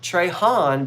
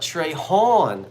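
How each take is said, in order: First: The last syllable has a flat 'a' vowel. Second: The last syllable has an open 'aw' vowel. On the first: The speaker calls it wrong. "So it's not Trey Han" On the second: The speaker calls it right. "but Trey Hawn. We both like Goldie Hawn"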